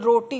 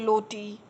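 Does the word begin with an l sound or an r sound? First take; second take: r sound; l sound. First: The word begins with an r sound. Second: The word begins with an l sound. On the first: The speaker calls it right. "जैसे रोटी हुई" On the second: The speaker calls it wrong. "र को ल बोलेंगे"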